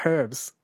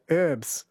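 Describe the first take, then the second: First: "herbs" with the h breathed out; sounded-h herbs. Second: "herbs" said "urbs", no h; American silent-h herbs. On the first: Shown as a demonstration. Host reads listener's preferred form, sounded-h "herbs". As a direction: pronounce the h at the start of "herbs". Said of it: "when there is clearly an H". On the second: Retold or imitated. Host reads listener's complaint about Americans, silent-h "herbs". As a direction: drop the h from "herbs". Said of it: "hear Americans say herbs".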